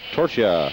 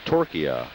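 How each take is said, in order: First: The name is said the speaker's usual way. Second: The name is said phonetically, as locals do.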